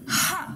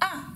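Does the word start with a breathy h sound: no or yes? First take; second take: yes; no. First: The word starts with a breathy h sound. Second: The word starts directly on the vowel. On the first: The speaker calls it right. "j'ai dit ha" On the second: The speaker calls it wrong. "j'ai pas dit ah"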